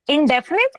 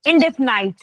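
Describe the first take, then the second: First: The last syllable has a short 'nit' sound. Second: The last syllable has a long 'night' sound. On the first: "दोनों तरीके से बोल सकते हैं इसको" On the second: "दोनों ही सही है"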